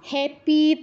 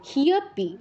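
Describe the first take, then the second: First: The first syllable is an open hya sound. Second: An h is touched, then a y glide follows. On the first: The speaker calls it wrong. "এসব বলা যাবে না" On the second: The speaker calls it right. "হতে touch করে ইয় এর উচ্চারণ"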